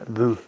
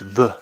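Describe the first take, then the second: First: The vowel is an 'oo' sound. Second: The vowel is a rounded 'euh' sound. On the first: The speaker calls it wrong. "not vous" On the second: The speaker calls it right. "It's v"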